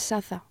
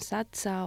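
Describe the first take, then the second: First: The middle consonant sounds like 'th'. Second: The middle consonant sounds like 'ch'. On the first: The speaker calls it right. "Es Saza" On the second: The speaker calls it wrong. "me llaman Sacha"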